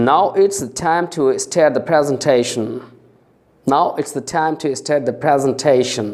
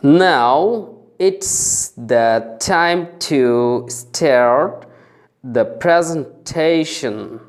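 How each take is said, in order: First: Full sentence at speed. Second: Very slow careful phrase; slow drill. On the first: Teacher reading the full sentence to the class, fluently. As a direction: run it together fluently. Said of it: "এবার দ্রুত গতিতে পড়ব". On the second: Teacher drilling the class, very slow. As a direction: stretch each syllable. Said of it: "বাক্যটা আমি পুরোপুরি এবার দ্রুত গতিতে পড়ব". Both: Shown as a demonstration.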